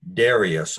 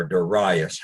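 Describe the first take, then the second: First: "Darius" said DAIR-ee-us, stress on the first syllable; "Darius" rhyming with "various". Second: "Darius" said duh-RYE-us, stress on the middle syllable; "Darius" stressed on RYE, rhyming with "pious". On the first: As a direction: say "Darius" with DAIR up front, then ee-us. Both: Shown as a demonstration. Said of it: "however we pronounce that".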